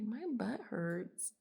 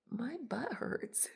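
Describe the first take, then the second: First: Deadpan butt hurts. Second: Blunt butt hurts. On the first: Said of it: "I think it's funny 'cause I usually say glutes". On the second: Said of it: "I usually say glutes". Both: Retold or imitated.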